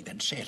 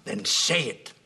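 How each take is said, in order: First: Said in the usual way. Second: Sharp, louder demand; loud challenge to his son; angry demand. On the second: Acted. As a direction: force him to speak up. Father confronting son.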